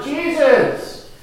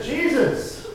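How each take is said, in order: First: High, loud cry above the crowd; desperate shout for Jesus over a noisy crowd; louder yell. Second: High, louder call to Jesus; beggar's raised, pleading call; impulsive cry. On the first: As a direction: yell out to get his attention. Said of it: "I just yelled out louder". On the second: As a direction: call out as if you can't help it. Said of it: "I just couldn't help myself". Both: Acted.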